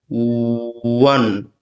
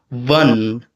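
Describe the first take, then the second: First: It begins with rounded lips, like a w. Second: It begins with lip-on-teeth contact, like a v. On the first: The speaker calls it right. "my lips flare away from the teeth, as if you were to make the stricture of the ooh" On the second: The speaker calls it wrong. "kind of like labiodental, which seems to be like the stricture seems to be like V"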